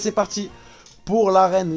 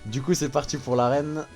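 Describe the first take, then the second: First: It is said in an exaggerated, silly way. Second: It is said in a plain, normal way.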